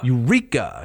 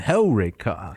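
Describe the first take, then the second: First: The stress is on the second syllable. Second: The stress is on the first syllable. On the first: The speaker calls it wrong. "They would put the emphasis on the penult" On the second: The speaker calls it right. "It goes on Hellraica"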